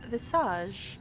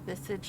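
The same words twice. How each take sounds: First: The word is said with a French pronunciation. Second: The word is said with an American pronunciation. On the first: The speaker calls it right. "Visage is the correct, correct pronunciation" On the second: The speaker calls it wrong. "I accidentally fall into American pronunciation"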